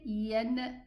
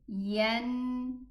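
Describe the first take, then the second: First: The nasal n sound is cut off early. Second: The nasal n sound is held until complete. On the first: The speaker calls it wrong. "We don't say" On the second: The speaker calls it right. "we give it the time required until the sound of the Noon that is produced from the nasal ends"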